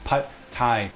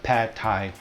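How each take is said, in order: First: The vowel in pad is like ago. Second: The vowel in pad is like apple. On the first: The speaker calls it right. "The A in pad is more like the word ago" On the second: The speaker calls it wrong. "A little bit incorrect"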